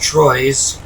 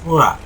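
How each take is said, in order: First: The name is said with an English pronunciation. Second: The name is said with a French pronunciation. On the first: The speaker calls it wrong. "pronounced Troyes, to uh, us Anglos who don't know any better" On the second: The speaker calls it right. "the correct pronunciation is Troyes"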